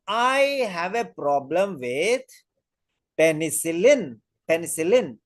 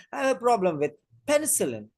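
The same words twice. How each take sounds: First: "penicillin" set apart after a pause, slow and drawn out; stress on penicillin. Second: Quicker sentence, "penicillin" set apart with lighter stress; some stress on penicillin. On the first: Teacher showing how a patient stresses the allergen, "penicillin" slow and emphatic. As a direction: lean hard on "penicillin", stretching it slowly. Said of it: "So that will be stressed especially".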